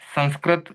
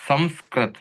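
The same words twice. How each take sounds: First: The first vowel is nasalized, with no closed m. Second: The first syllable ends in a clear m sound. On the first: "नासिका से संस्कृत इस प्रकार से उच्चारण करें" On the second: "या संस्कृत इस प्रकार से भी उच्चारण किया जा सकता है"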